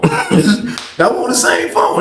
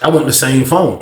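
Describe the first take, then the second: First: Very slow, drawn out request. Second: Said in the usual way. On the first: Shown as a demonstration. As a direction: stretch every word out. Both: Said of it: "That's all I said".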